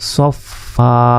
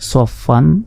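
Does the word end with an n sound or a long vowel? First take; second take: long vowel; n sound. First: The word ends with a long open vowel. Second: The word ends with an n sound. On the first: The reader stops on this word. "আমরা যদি ওয়াকফ করি এখানে" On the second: The reading continues past the word. "ফা দুই জবর ফান"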